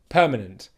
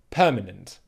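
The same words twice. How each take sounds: First: The last syllable is reduced to a weak 'unt'. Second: The last syllable is reduced to a weak 'unt'.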